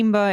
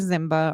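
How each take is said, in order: First: The name begins with an S sound. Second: The name begins with a Z sound. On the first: Another way some people say the name. "Simba is another way" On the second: The way the family says the name. "think of Simba from The Lion King and just add a Z"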